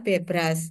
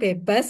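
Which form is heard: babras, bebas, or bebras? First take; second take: bebras; bebas. First: Both r sounds and e vowels are present. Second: The second r sound is dropped. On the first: The speaker calls it right. "Tapi ini adalah Bebras" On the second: The speaker calls it wrong. "kadang bebas gitu ya"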